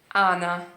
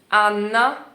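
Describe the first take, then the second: First: The n sound is short. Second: The n sound is held long. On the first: "Completamente diferente" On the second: "Anna con due N"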